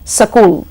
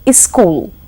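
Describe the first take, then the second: First: A vowel is inserted between s and k. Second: An i vowel comes before the s. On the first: "or sakul" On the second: "becomes iskul"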